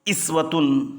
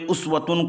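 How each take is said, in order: First: The word begins with an i vowel. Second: The word begins with a u vowel. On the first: This is the reading of the reciter being described. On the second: This is the reading of other reciters.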